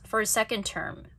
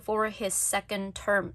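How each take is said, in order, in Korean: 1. 단어들을 연음으로 이어서 발음해요. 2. 각 단어를 연음 없이 따로 발음해요. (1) "쭉 for his second term 연음 잘 하고 있는지" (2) "이런 식으로 하면 대화 안 된단 말이죠"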